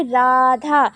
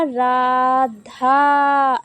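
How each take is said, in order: First: Said in the usual way. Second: राधा with the final aa stretched very long; drawn-out call. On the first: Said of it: "जैसे हमने बोला राधा". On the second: Shown as a demonstration. Teacher showing students a pluta vowel, drawn-out call. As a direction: hold the last vowel of राधा like calling far off. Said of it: "तो वो खींच कर बोला".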